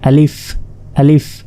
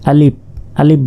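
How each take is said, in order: First: The word ends with an f sound. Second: The word ends with a p sound. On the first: The speaker calls it right. "আসলে এটা আলিফ আলিফ" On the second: The speaker calls it wrong. "Bangla প শেষে আলিফ আলিফ বলে"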